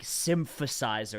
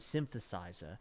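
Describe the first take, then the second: First: The th is replaced by a hard F sound. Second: The th is replaced by a soft F sound. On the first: "It's not like" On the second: "where they replace the T H with an F sound. But it's really soft"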